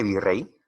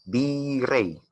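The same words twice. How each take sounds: First: Said in the usual way. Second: "virrey" sounded out higher, syllables drawn out; stressed word demo. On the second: Shown as a demonstration. Teacher tests whether word is aguda, "virrey" sounded out deliberately. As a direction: stretch "virrey" out to test where the stress falls. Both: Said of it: "tenemos en este caso una palabra aguda".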